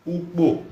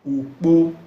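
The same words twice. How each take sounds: First: "Ukpo" with a high pitch falling at the end; pronunciation demo. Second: "ukpo" high, with a stronger second syllable; intonation demo. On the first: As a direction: say "Ukpo" high, then let it drop. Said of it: "as pronounced". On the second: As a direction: hold "ukpo" up and lean on the final po. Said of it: "the intonation with ye". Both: Shown as a demonstration.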